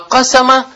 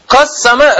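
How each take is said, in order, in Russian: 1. Звук s одиночный и короткий. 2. Звук s удвоенный и произносится дольше. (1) "а «кассама» – «ашхара»" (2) "что он таждид там есть? ... «Кассама» разделил"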